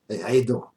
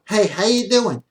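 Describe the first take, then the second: First: The voice is low and deep. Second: The voice is high and thin. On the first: The speaker sounds powerful and attractive. The speaker calls it right. "The difference in power is in the voice" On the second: The speaker sounds weak and unattractive. The speaker calls it wrong. "I know you don't have that voice"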